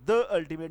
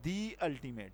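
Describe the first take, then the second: First: "the" with a short schwa before "ultimate"; "the" wrongly as "duh". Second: "the" with a long ee gliding into "ultimate"; "the" as "dee". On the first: Teacher rejecting the wrong form, "the" said "duh" before "ultimate". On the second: Teacher giving the corrected form, "the" said "dee" before "ultimate". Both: Shown as a demonstration. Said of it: "نہیں ہوگا".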